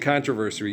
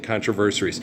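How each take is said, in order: First: The word is said in a standard accent. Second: The word is said in a patois accent. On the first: The speaker calls it wrong. "You can't say controversy" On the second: The speaker calls it right. "You have to say controversies. It's patois"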